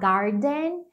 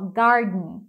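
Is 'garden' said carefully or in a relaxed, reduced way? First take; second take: carefully; reduced. First: The word is said carefully with every sound. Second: The word is said relaxed with the middle reduced. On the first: "você pode falar garden" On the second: "na maioria das vezes os americanos falariam assim"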